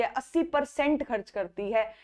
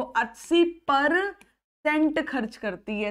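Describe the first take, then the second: First: Said in the usual way. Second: Slow, deliberate repeat. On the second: Shown as a demonstration. Teacher to students, very slow repeat of अस्सी percent. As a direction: say अस्सी percent खर्च करती है very slowly, each word spaced. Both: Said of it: "एक बार और बोल के देखो".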